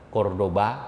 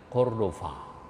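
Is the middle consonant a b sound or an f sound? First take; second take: b; f. First: The middle consonant is a b sound. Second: The middle consonant is an f sound. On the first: This is how Indonesians say it. "Kita bilang Cordoba" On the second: This is how the locals say it. "dia bilang Cordova"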